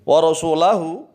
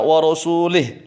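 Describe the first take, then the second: First: The L is followed by an a vowel. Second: The L is followed by an i vowel. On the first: Allah and the messenger both disown the polytheists. "lamnya di fathah" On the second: Allah disowns the polytheists and also the messenger. "salah membacanya, lamnya di kasroh"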